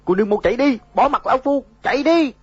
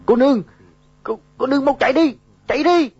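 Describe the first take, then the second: First: Dying man's final cry, high and loud; last breath. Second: High, loud urgent cry; desperate shout. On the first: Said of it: "nói xong liền tắt thở". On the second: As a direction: yell at her to run. Dying man urges her to flee. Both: A narrator's reading.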